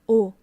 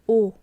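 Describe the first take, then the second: No difference in how they are said.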